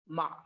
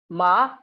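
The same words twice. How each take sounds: First: The pitch stays low and grave. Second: The pitch rises toward the end. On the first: It means horse. "with grave pitch" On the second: It means mad. "with rising pitch"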